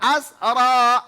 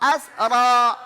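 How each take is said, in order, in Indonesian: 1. R-nya digetarkan sebentar, sekali saja. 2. R-nya digetarkan sebentar, sekali saja.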